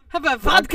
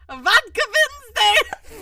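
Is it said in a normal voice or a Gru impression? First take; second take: normal voice; Gru impression. First: It is said in his normal voice. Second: It is said in a Gru impression voice.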